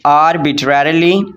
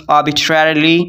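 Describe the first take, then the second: First: Arbitrarily with a tapped r and a full "trar" in the middle, ar-bi-trar-i-li; arbitrarily the way people say it in Pakistan, every syllable pronounced; Pakistani pronunciation. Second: Arbitrarily as "ar-bi-TRER-li", middle syllables squeezed together; clipped English arbitrarily, ar-bi-trer-li, slower pace; teacher's own pronunciation. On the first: Teacher showing the common Pakistani way to say arbitrarily. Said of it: "Pakistan में arbitrarily".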